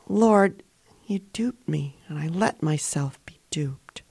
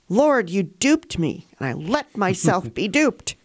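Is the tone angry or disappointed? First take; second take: disappointed; angry. First: The voice sounds disappointed. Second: The voice sounds angry. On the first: The speaker is disappointed with himself. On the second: The speaker is angry at God.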